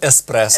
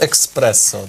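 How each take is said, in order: First: It is said with no k sound before s. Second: It is said with a k sound before s. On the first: The speaker calls it right. "правильно треба називати еспресо" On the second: The speaker calls it wrong. "бо багато хто підходить, а можна експресо"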